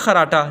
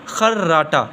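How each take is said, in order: First: The r sound is short and single. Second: The r sound is doubled with a jolt. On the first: The speaker calls it wrong. "हम पढ़ते हैं खराटा, नहीं" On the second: The speaker calls it right. "झटका देना ही लफ्ज़ बनेगा खर्राटा"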